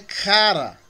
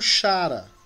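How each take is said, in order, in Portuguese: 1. A palavra começa com um som de k. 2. A palavra começa com um som de sh. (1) "Mas é cara" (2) "que muitos pronunciam como chara"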